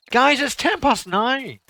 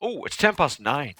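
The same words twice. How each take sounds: First: Higher, slow call to the room; drawn-out call to get the guys' attention. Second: Said in the usual way. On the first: Real, not acted. Telling the guys the time, a slow raised call.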